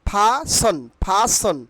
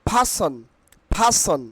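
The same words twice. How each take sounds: Both takes have the same delivery.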